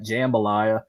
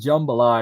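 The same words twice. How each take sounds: First: It is pronounced the way an outsider said it. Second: It is pronounced the way locals say it. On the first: The speaker calls it wrong. "not jambalaya" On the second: The speaker calls it right. "It's jambalaya"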